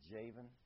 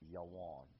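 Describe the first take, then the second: First: It begins with J and has a V sound. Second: It begins with Y and has a W sound. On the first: This is the anglicized form of the name. "this anglicized transliteration" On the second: This is the ancient Hebrew pronunciation. "you have Yawon, the way I'm pronouncing it"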